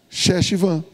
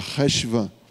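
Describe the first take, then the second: First: The name begins with a sh sound. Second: The name begins with a guttural r sound. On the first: The speaker calls it wrong. "Se eu colocasse um C H aqui, como é que você ia ler?" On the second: The speaker calls it right. "precisa ter um duplo R"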